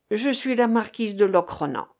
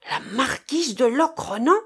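First: Said in the usual way. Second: Astonished echo, pitched up high; startled exclamation. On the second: A narrator's reading. Sailor leaping up on hearing the captive's name, startled exclamation. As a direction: exclaim the title in disbelief, rising at the end. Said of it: "s'écria Marcof en bondissant".

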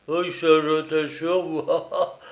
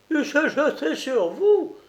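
First: Grumbling jeer with a laugh; mocking growl. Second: Much higher, rising indignant cry; outraged disbelief. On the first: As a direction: sneer it as the strongmen. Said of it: "grognèrent les deux Hercules". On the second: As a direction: shriek it back in disbelief. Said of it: "clama la grosse colombine". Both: A narrator's reading.

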